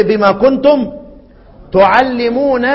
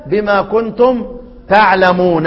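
First: تعلمون said tu-ʕallimūn, with damma on the ta and a doubled lam; تعلمون with a long doubled lam, tuʕallimūn; first reading. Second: تعلمون said taʕlamūn, with a on the ta and a single light lam; تعلمون light and undoubled, taʕlamūn; second reading. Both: Shown as a demonstration. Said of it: "ادي القراءتين".

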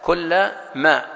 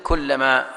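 First: كل ما slowly split, "kulla... ma"; said as separated. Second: Said in the usual way. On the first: Shown as a demonstration. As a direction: pause between كل and ما, each word on its own. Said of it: "مفصولة". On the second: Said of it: "وبعضها متصلة".

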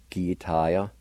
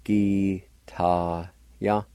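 First: Said in the usual way. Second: "Guitar-ya" very slowly, in separate syllables; syllable-by-syllable pronunciation. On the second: Shown as a demonstration. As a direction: break "Guitar-ya" into drawn-out syllables. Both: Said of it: "pronounced like this".

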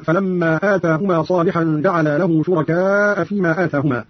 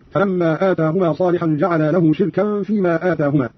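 First: Said in the usual way. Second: شركا said shirkan; i after sh, silent r-vowel, -an ending in شركا; Qalun's reading. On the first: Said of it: "قرأ قالون بكسر الشين". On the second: Shown as a demonstration. Teacher demonstrating Qalun's reading, شركا as shirkan. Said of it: "قرأ قالون بكسر الشين وإسكان الراء وتنوين الكاف".

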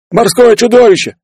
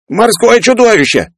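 First: Loud, very high cry of alarm; panicked shout. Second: High, drawn-out terrified squeal; squealing yell. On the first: Running sailor announces the monster, panicked shout. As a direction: yell it out in terror. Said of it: "крикнул пробегавший мимо матрос". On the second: Peller screams at sight of monster, squealing. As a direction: yell until the voice breaks into a squeal. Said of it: "срываясь на визг, заорал Пеллер". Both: A narrator's reading.

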